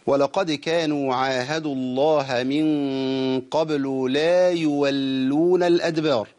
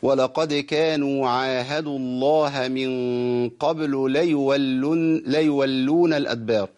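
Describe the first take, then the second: First: Slow, with the alif of "لا يولون" held long; "لا يولون الأدبار" with a clear long la; correct recitation. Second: Slow, with "لا يولون" shortened to "ليولون"; "ليولون الأدبار" with the alif gone; wrong dropped alif. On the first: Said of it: "ده الصواب". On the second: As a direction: drop the alif so "ليولون" is one word. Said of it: "اسمعوا الخطأ كده". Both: Shown as a demonstration.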